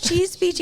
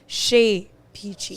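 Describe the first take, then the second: First: The first word sounds like 'cheese'. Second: The first word sounds like 'shay'. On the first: The speaker calls it wrong. "the only one I won't accept is cheese" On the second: The speaker calls it right. "the correct French pronunciation would be Chez Peachy"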